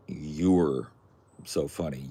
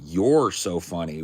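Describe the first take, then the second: First: "You're" said as "yer", with an er vowel; contraction "You're". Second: "You're" said as "yore", drawn out and louder; possessive "your". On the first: Correcting someone's spelling, "You're" as the contraction "yoo-er". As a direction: say "You're" like "yoo-er", then pause. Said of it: "What you wanted to say was". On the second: Mocking the misspelling, "You're" stressed like possessive "yore". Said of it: "would imply that I owned". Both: Shown as a demonstration.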